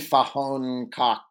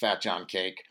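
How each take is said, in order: First: The name is given a foreign pronunciation. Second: The name is read as English words. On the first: The speaker calls it right. "It's probably Fahon Cock or something" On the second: The speaker calls it wrong. "It's not pronounced Fat John Cake"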